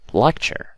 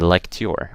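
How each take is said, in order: First: The ending is said with a ch sound. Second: The ending is said with a plain t sound. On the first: The speaker calls it right. "I say picture, lecture" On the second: The speaker calls it wrong. "I don't say lecture or picture. That's wrong"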